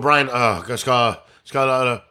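The name is said hesitantly, with a pause. The speaker is unsure of the name. The speaker calls it wrong. "Don't go"

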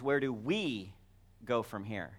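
The word "we" carries the main stress. It asks about us personally. "that can be a personal question"

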